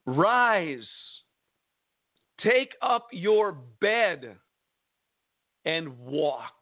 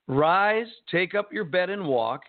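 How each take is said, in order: First: Very slow command with long pauses; solemn command. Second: Punched RISE, then the rest run together; brisk command. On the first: Jesus commands the sick man to walk, solemn. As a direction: give each phrase weight, falling on the last. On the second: Jesus tells the sick man to walk, brisk command. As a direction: repeat the command briskly, hitting RISE hard. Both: Acted.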